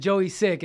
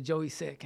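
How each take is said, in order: First: Hysterical ex-wife. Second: Said in the usual way. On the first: Retold or imitated. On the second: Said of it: "She said".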